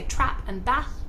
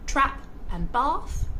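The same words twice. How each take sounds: First: It is spoken in a Northern English accent. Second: It is spoken in an Australian accent. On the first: "People from the north of England will say" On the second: "So Australians will say"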